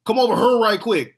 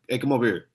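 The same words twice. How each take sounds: First: Put-on "here" as "hur", high and loud Saint Louis accent. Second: Said in the usual way. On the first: Imitating most people in Saint Louis, exaggerated local accent. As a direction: call out in a broad Saint Louis accent, "here" rhyming with her. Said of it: "most people in Saint Louis would be like". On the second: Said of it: "and I'm just like".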